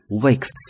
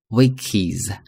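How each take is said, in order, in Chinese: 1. 这个词结尾是清音 s。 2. 这个词结尾加了一个 iz 音节。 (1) "可以发s" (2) "可以发is"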